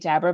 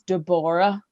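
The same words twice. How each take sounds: First: The name is pronounced the familiar modern way. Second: The name is pronounced an unusual, different way. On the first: This is not how the people involved said it. The speaker calls it wrong. "they don't say Deborah" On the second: This is how the people involved said it. The speaker calls it right. "it's Deborah"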